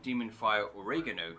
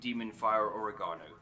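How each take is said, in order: First: Oregano is said in an American pronunciation. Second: Oregano is said in a non-American pronunciation.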